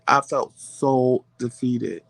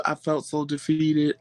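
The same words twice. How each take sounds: First: "so" drawn out slowly, pitch lowered; slow and low, lingering on "so defeated"; emphatic defeat. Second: Said in the usual way. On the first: Real, not acted.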